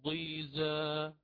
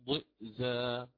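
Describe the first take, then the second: First: A long i vowel follows the first consonant. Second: A glottal stop follows the first consonant.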